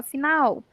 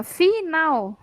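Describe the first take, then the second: First: Final with the last syllable NAL held strong; stress on NAL. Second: Final with FI stretched high and strong; wrong stress on FI. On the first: Teacher showing how people say it, NAL stressed in final. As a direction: lean on NAL at the end of final. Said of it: "a gente fala final". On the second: Teacher showing what nobody says, FI wrongly stressed in final. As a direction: punch the first syllable FI in final. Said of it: "Que ninguém fala final". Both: Shown as a demonstration.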